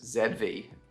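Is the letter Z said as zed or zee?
zed. The letter Z is said as zed. This is the speaker's own usual way of saying it. The speaker calls it wrong. "whereas Z V just doesn't have the ring to it"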